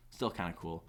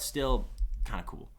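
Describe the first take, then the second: First: "Still kinda cool" said again lower and much softer; quiet echo. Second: Said in the usual way. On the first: Real, not acted. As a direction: mutter the repeat under your breath. Repeats phrase, second one fades.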